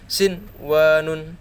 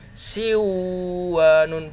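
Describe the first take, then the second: First: The n sound is pronounced clearly before w. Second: The n sound merges into the following w. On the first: The speaker calls it right. "tapi ini sin wa nun" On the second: The speaker calls it wrong. "bukan lagi si wa nun, bukan"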